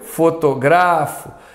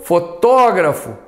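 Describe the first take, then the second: First: The stress is on the third syllable. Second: The stress is on the second syllable. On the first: It is a verb meaning I photograph. "a forma verbal não. Uma paroxítona muda a vogal tônica" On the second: It is a noun meaning a photographer. "o substantivo tem ah, o acento, porque é uma proparoxítona"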